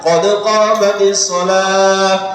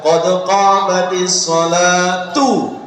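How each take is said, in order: First: The last word ends with an h sound. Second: The last word ends with a tu sound. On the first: The phrase stops before the next one. "Kalau dipisah tidak ada masalah" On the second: The phrase runs on into the next without stopping. "komat digandeng itu yang betul adalah"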